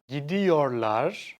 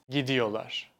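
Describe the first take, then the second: First: The r sound in the middle is kept. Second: The r sound in the middle is dropped.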